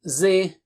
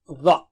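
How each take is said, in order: First: The sound is light and thin. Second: The sound is heavy and thick. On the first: The speaker calls it wrong. "Don't say it like Zoe or ze or whatever" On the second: The speaker calls it right. "It's very thick and high letter"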